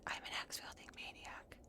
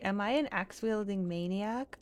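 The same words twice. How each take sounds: First: Breathy, voiceless whisper; whispered realisation. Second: Said in the usual way. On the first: Acted. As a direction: whisper it to yourself as it dawns. Hushed realisation, repeats own question.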